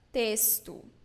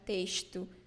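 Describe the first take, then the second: First: The x is pronounced like an s sound. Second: The x is pronounced like a sh sound. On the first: This is how most of Brazil says it. "So you say experiência, it's S sound. Extra, texto" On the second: This is how people from Rio de Janeiro say it. "like they pronounce letter S with sh sound"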